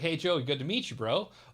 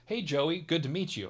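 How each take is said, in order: First: It is said in Crush's surfer voice. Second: It is said in his normal voice.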